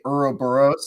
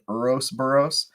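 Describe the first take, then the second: First: The word has no extra s sound inside. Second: The word has an extra s sound inside. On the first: The speaker calls it right. "I was supposed to say Ouroboros" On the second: The speaker calls it wrong. "I accidentally said Urosboros"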